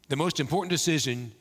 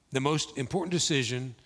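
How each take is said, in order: Both takes have the same delivery.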